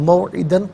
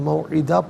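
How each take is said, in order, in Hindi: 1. शब्द का अंत न की ध्वनि से होता है। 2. शब्द का अंत एक दीर्घ स्वर से होता है। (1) "और मौइदन पढ़ेंगे" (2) "वफ़ की सूरत में मौइदा पढ़ा जाएगा"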